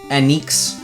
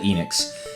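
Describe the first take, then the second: First: The first vowel is an 'eh' sound. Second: The first vowel is not an 'eh' sound. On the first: This follows the Japanese vowel pronunciation. "the E is pronounced as eh" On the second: This is the speaker's habitual way of saying the name. "I always called it Enix"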